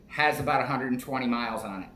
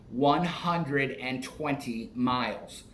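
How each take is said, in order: First: Said in the usual way. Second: "one" hit first, whole phrase said slowly; stress on one. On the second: Real, not acted. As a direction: spell out "one hundred and twenty miles" word by word. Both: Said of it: "Not a hundred and twenty thousand".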